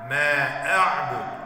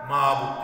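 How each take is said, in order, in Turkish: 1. 'Ayn'dan önceki ünlü açıkça tutulur. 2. 'Ayn'dan önceki ünlü yutulur.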